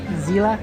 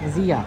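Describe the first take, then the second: First: The middle consonant is a clear L sound. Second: The middle consonant has no L sound. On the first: The speaker calls it wrong. "Not not Zila" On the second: The speaker calls it right. "when you pronounce the L's a little differently"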